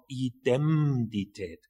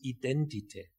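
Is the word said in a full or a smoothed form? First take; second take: full; smoothed. First: The word is said in a harder, unsmoothed form. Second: The word is said in an easier, smoothed form. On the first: This is the original form from the Latin root. "eigentlich heißt das Wort Identität. Aber weil das schwer auszusprechen ist" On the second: This is the simplified everyday form. "hat man es geglättet zu Identität"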